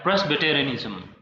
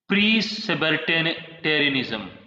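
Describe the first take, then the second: First: The word starts with a full 'pres' sound. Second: The word starts with a plain 'pre' sound. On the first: The speaker calls it right. "I should pronounce this word like Presbyterianism" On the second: The speaker calls it wrong. "It's not a pre"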